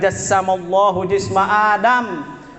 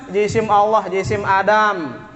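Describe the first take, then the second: First: It is read with the verb jassama. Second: It is read as two nouns, jisim Allah. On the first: God created the body of Adam. The speaker calls it right. "Yang baca benar itu" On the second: God has a body that is Adam's body. The speaker calls it wrong. "salah baca"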